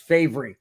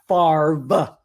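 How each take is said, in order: First: The name is pronounced following its spelling. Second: The name is pronounced unlike its spelling. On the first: The speaker calls it right. "F A V R E is Favre" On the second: The speaker calls it wrong. "not Favre"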